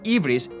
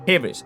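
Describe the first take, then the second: First: The word begins directly with a vowel. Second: The word begins with a soft h sound. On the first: This is the modern Greek pronunciation. "in modern Greek we pronounce it as Ivris" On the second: This is the Ancient Greek pronunciation. "in Ancient Greek it would be like a soft H"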